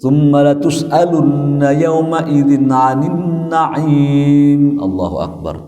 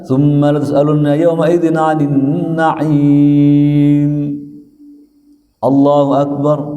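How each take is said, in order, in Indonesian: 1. Allahu akbar mengikuti ayat tanpa jeda. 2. Ada jeda singkat sebelum Allahu akbar. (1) "kena ini ancaman nantinya"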